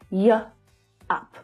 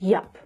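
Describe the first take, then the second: First: The two sounds are said apart. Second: The two sounds merge into one syllable.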